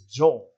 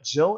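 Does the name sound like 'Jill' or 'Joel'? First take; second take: Joel; Jill. First: The name is said with a drawn-out 'oh-el' vowel. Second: The name is said with a short 'i' vowel. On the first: This copies a character's odd in-game pronunciation. The speaker calls it right. "It's Joel as pronunciated by Barry Burton" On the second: This is the usual way people say the name. The speaker calls it wrong. "It's not Jill"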